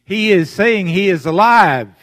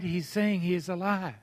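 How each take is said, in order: First: Loud, higher ringing proclamation; full-voiced sermon cry; preaching shout. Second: Said in the usual way. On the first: Real, not acted. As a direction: shout it out to the congregation.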